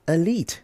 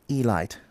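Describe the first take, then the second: First: Elite said uh-LEET, long ee at the end. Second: Elite said ee-LIGHT, ending like light; ee-LITE. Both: Shown as a demonstration. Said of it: "not elite".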